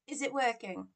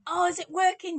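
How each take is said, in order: First: Said in the usual way. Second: High, loud, eager burst; hopeful and excited, suddenly much louder; excited check. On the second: Real, not acted. Streamer asking viewers if the mic works, high and excited.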